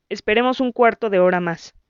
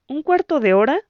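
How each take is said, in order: First: Said in the usual way. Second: High, rising, unsure echo of cuarto; hesitant echo. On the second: A narrator's reading. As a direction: question the wait, unsure. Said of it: "preguntó indecisa". (eco dudoso y agudo de "cuarto")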